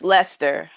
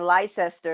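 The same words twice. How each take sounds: First: Leicester as LESS-ter, two syllables; correct British Leicester. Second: Leicester as LIE-sess-ter, three syllables; American misreading of Leicester. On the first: Shown as a demonstration. Correcting own mistake for co-host, Leicester as LESS-ter. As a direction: shorten Leicester to sound like Lester. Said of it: "And it's, it's Leicester". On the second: Retold or imitated. Recalling own mistake among Britons, Leicester as LIE-sess-ter. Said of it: "I be saying Leicester".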